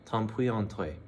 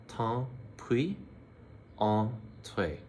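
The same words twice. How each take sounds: First: Said in the usual way. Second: "Tant pis" rising, then a slow "entrez"; teacher slowing down the phrase; slow demo. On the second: Shown as a demonstration. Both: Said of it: "So again".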